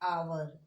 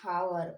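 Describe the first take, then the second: First: The word begins with a vowel, no H. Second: The word begins with an H sound. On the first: The speaker calls it right. "इसे हम पढ़ते हैं आवर" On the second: The speaker calls it wrong. "हावर नहीं पढ़ते हम इसको"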